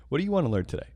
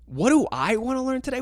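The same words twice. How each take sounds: First: Lightly voiced clueless teacher; retold teacher. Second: High-pitched, incredulous echo of the question; incredulous inner reaction. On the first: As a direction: mimic a teacher's casual question. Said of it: "and they go". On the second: Retold or imitated. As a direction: throw the question back in disbelief. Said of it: "in my head, I'm like".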